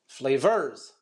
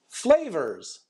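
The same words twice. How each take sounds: First: The stress is on the second syllable. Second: The stress is on the first syllable. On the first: The speaker calls it wrong. "I'm going to stress vers instead of flavors" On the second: The speaker calls it right. "our stress should be on the first syllable"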